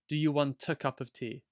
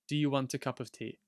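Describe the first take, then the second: First: A clear T links into the following vowel. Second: The same.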